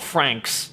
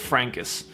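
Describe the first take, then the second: First: The word is said as one syllable. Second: The word is said as two syllables. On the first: The speaker calls it wrong. "It's not Franks" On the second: The speaker calls it right. "it's Frankus"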